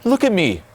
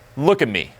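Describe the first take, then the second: First: It is said in an eager, chasing tone. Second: It is said in a calm, leading tone. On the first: The speaker wants something from the listener. The speaker calls it wrong. "That's taking" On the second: The speaker is having fun and leads the interaction. The speaker calls it right.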